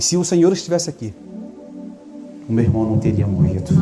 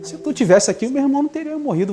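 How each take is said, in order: First: It is said in a humble, pleading tone. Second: It is said in a haughty, reproachful tone.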